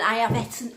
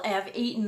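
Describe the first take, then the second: First: "eaten" said as "etten"; dialect "eaten". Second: Said in the usual way. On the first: Real, not acted. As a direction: say "eaten" with a short e, like "bet". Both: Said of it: "eat, well".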